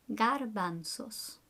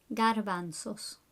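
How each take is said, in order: Both takes have the same delivery.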